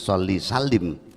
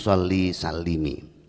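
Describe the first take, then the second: First: The last word ends without a final vowel. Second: The last word ends with a final 'i' vowel. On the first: The speaker calls it wrong. "bukan sholli salim" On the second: The speaker calls it right. "huruf akhir dibaca kasroh"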